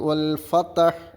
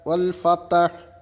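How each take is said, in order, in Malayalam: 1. t ശബ്ദത്തിന് ശേഷം 'a' സ്വരാക്ഷരം വരുന്നു. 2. t ശബ്ദത്തിന് ശേഷം 'a' സ്വരാക്ഷരം വരുന്നു.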